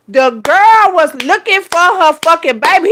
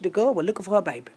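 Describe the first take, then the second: First: Loud, high, drawn-out indignation; indignant emphasis. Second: Softer, quicker reported line; quiet retelling. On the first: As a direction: stretch it out loudly in exasperation. Repeats line with force. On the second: First take of retold line. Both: Retold or imitated.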